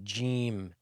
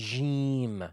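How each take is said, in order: First: The first consonant begins with a slight d. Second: The first consonant has no d onset. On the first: The speaker calls it right. "It's a slight D" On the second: The speaker calls it wrong. "Avoid saying Jim"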